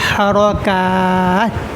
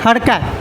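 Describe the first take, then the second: First: The sounds are exaggerated and overdone. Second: The sounds are said plainly and naturally. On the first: The speaker calls it wrong. "ये बोलने की कोई ज़रूरत नहीं है कि हरकत" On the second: The speaker calls it right. "बल्कि बस हरकत"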